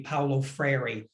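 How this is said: The name is said with an American English accent. "In a U S English accent"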